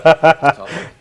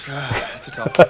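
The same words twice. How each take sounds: First: Louder, higher, exclaimed; emphatic exclaim. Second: Breathy half-laughed under the breath; laughing whisper. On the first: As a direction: throw it out loud as a real dilemma. Hard question, repeats it. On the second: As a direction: chuckle it out in a whisper. Hard question, sighs. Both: Real, not acted.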